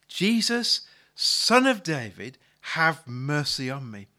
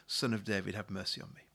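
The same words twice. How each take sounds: First: Loud, drawn-out cry for mercy; calling out. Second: Said in the usual way. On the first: Retold or imitated. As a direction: call out to Jesus over a crowd, slowly. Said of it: "he begins to call out". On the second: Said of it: "but he cried out all the more".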